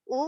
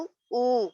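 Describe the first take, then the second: First: First او as a quick "u"; one brief او, not stretched; short u. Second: Second او stretched into "ooo"; lengthened او; long u. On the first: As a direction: keep او short. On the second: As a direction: hold the او out. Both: Shown as a demonstration. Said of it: "فرق دیکھ رہے ہیں".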